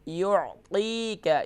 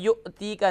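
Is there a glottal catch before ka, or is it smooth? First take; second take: smooth; glottal catch. First: The word flows smoothly without a glottal catch. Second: A glottal catch breaks the word before ka. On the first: The speaker calls it right. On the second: The speaker calls it wrong.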